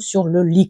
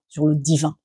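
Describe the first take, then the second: First: The last word is slurred, sounding like lit. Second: The last word is articulated clearly as divin. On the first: The speaker calls it wrong. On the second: The speaker calls it right.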